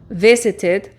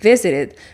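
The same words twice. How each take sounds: First: The middle consonant is a clear t sound. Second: The middle consonant is a quick r-like tap.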